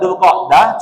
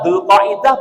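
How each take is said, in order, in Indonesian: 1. Tidak ada vokal yang terdengar antara 'qa' dan 'dah'. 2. Vokal 'i' tambahan terdengar setelah 'qa'. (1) "Sebenarnya yang benar dzulqa'dah" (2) "dzulqa'dah sama dzulqa'idah boleh enggak?"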